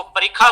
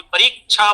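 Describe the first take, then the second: First: परीक्षा said as parikha; ksha as kha. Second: परीक्षा said as parichha; ksha as chha. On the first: Teacher showing one faulty variant, परीक्षा as parikha. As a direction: say the क्ष of परीक्षा as plain 'kh'. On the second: Teacher showing another faulty variant, परीक्षा as parichha. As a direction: say the क्ष of परीक्षा as 'chh'. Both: Shown as a demonstration. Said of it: "ख और छ की तरह उच्चारण".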